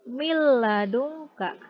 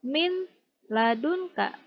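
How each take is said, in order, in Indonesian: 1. Bunyi n melebur menjadi l yang ganda. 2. Bunyi n dibaca jelas sebelum l. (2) "Tidak dibaca"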